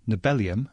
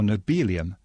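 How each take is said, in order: First: The middle part sounds like the word Nobel. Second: The middle part rhymes with the word helium. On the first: The name follows its root word. "because it comes from the same root as the Nobel Prize" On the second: The name follows a similar element name. "modelled on the way we say helium"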